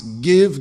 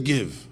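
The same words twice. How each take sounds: First: Loud barking demand, imitating a dog; dog barking give. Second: Said in the usual way. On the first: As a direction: bark it like a begging dog. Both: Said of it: "it's like a dog who barks".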